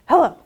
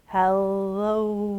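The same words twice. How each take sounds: First: It is said very quickly. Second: It is said very slowly.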